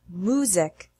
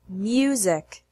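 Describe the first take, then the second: First: The M goes straight into an oo sound. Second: A Y sound follows the M before oo. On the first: The speaker calls it wrong. "Don't pronounce it music" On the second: The speaker calls it right. "The correct way is music"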